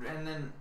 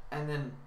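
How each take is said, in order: Both takes have the same delivery.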